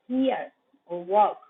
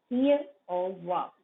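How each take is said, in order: The two takes are said the same way.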